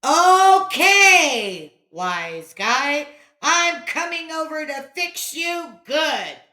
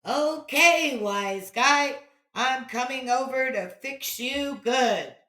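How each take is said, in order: First: Loud, high angry threat; bellowed. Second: Echo. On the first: Boy threatening the wise guy, angry bellow. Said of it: "Johnny bellowed". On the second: Echo returning the threat, distant. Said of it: "was the reply". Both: A narrator's reading.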